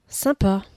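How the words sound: It trails off with a half-hearted, unimpressed tone. The speaker is unimpressed and indifferent. "avec ses trois petits points. Là, c'est le bof à la parisienne"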